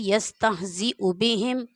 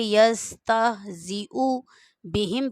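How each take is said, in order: First: It is said smoothly and quickly. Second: It is said slowly and carefully.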